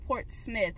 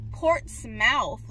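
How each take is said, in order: First: The final syllable is reduced and unstressed. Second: The final syllable is fully enunciated like 'mouth'. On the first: This is how locals say it. The speaker calls it right. "people are telling me no, it's Portsmouth" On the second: This follows the spelling. The speaker calls it wrong. "it's spelled Portsmouth"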